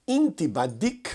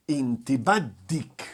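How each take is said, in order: First: "Inti baddik?" slowly, rising at the end; tom de pergunta. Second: Said in the usual way. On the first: Shown as a demonstration. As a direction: ask "Inti baddik?" with a lift on "baddik". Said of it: "com um tom de pergunta". ("Inti baddik?" devagar, subindo no final) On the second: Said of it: "Pra mulher".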